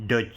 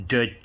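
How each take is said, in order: Both takes have the same delivery.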